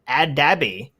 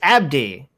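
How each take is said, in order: First: The name has three syllables, with an extra vowel. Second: The name has two syllables, with no extra vowel. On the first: The speaker calls it wrong. "It's not Ad Adabi" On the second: The speaker calls it right. "It's Abdi"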